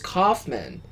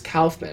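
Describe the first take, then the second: First: The first syllable does not sound like 'cow'. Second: The first syllable sounds like 'cow'. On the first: This is how other people usually say it. The speaker calls it wrong. "everyone always says Kaufman" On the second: This is how the name's owner says it. The speaker calls it right. "they pronounced K-A-U Cow"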